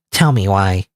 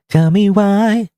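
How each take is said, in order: First: Said in the usual way. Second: Much higher, slow stretched "why"; slow high whine on "Tell me why"; drawn-out plea. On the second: Acted. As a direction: draw out "why" high and whiny, begging. Pleading in argument.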